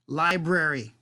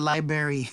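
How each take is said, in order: First: The r after the b is clearly said. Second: The r after the b is left out. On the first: The speaker calls it right. "Take a moment to say R" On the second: The speaker calls it wrong. "not library"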